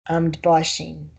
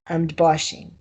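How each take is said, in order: No difference in how they are said.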